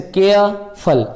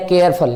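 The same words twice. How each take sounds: First: "careful" slowly split into two beats, care and फुल; syllable by syllable. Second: Said in the usual way. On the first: Shown as a demonstration. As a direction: pause inside "careful" between care and फुल. ("Careful" को दो पदों में तोड़कर धीरे बोलें) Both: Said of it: "इसमें दो पद हैं".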